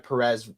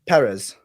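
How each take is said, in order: First: The name is said plainly, without a foreign accent. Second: The name is said with a put-on foreign accent. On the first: "You say it without the accent" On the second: "Am I allowed to try to say the accent?"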